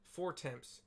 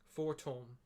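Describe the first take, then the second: First: The name is read aloud just as it is written. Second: The name is said the French way, dropping letters. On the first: "just put it in the quest text. Like" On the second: "pronunciation guide next to it is like"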